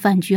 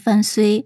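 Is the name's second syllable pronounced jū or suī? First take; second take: jū; suī. First: The second syllable is pronounced jū. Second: The second syllable is pronounced suī. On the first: This is the reading most people use. "绝大多数人都是念雎吧，所以我们在这里还是把它念作范雎好了" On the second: This is the reading some scholars propose. "有些学者……认为呢这个雎字它应该念虽，所以呢他名字应该念范虽"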